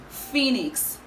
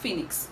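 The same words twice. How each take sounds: First: The first vowel is long. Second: The first vowel is short. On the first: The speaker calls it right. "The first syllable of this word has a long vowel sound" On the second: The speaker calls it wrong. "So it's not phoenix"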